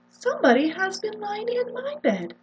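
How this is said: It is said in a medium voice.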